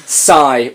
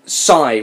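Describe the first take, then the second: First: Said in the usual way. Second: Read sigh. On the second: Shown as a demonstration. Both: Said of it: "Can you do that?".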